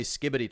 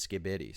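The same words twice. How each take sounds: First: Said in the usual way. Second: "Skibidi" said as ski-BIDDY; AI-voice pronunciation. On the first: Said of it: "originally Skibidi toilet". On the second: Shown as a demonstration. Streamer explains the AI voice's version, "Skibidi" as ski-BIDDY. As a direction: say "Skibidi" like a text reader, weight on "biddy". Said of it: "if you put that into an A I voice".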